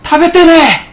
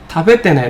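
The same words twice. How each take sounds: First: It is said forcefully and strongly. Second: It is said gently and softly. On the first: The speaker calls it wrong. "이렇게 세게 말 안 해요" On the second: The speaker calls it right. "어조 자체도 되게 부드럽잖아"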